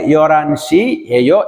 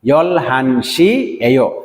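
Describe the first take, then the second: First: The syllables run together quickly, dropping the h. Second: The syllables are said separately, with a clear h. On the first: This is how a fluent speaker says it. "যারা স্পিড দিয়ে ফ্লুয়েন্টলি বলতে পারেন" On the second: This is how a beginner says it. "যারা নতুন তারা বলবেন"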